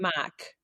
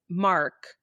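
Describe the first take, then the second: First: The R sound is dropped, Boston-like. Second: The R sound is clearly pronounced. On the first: "her R's would not be strong" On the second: "had a buddy"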